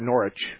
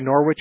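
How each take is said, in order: First: It is said with the British pronunciation. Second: It is said with the American pronunciation. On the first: This is how the town in England is named. "the second pronunciation, neighbor Steve, is English" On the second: This is how the town in Connecticut is named. "We say Norwich here in Connecticut"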